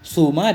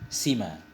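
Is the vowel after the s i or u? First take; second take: u; i. First: The vowel after the s is u. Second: The vowel after the s is i. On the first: "Suma dengan dhammah sin" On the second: "kasrahnya sin pula"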